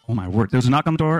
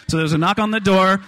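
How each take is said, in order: First: Fast, rattled-off telling; rushed. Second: Said in the usual way. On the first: Shown as a demonstration. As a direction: speed through it to save time. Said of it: "I'm gonna tell the next two stories really fast". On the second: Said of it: "tell the next two stories really fast".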